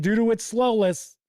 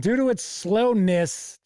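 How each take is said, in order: First: "slowless" with an L in place of N; misread word. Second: "slowness" with a clear N in -ness; corrected reading. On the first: Reading small-font rules aloud, "slowless" misread with -less. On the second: Correcting a misreading of the rules, "slowness" ending in -ness. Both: Real, not acted. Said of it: "this font is kinda small".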